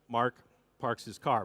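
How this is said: It is said with the R sounds pronounced.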